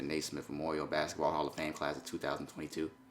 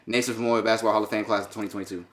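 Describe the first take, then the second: First: The phrase is said quickly. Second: The phrase is rushed out even more quickly. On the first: "See how fast I said that?" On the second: "That better?"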